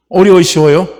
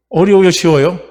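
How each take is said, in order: First: 어려워요 pushed out louder the second time; louder repeated question. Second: Said in the usual way. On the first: Real, not acted. Preacher pressing the congregation for an answer, louder. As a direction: ask it again, pressing the crowd.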